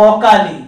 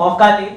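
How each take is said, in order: The two takes are said the same way.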